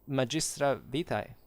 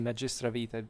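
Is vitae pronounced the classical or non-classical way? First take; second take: classical; non-classical. First: Vitae is pronounced the reconstructed classical way. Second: Vitae is pronounced a later, non-classical way. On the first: "I pronounce it in the, the classical way" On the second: "You can say magistra vitae, it's, it's the same"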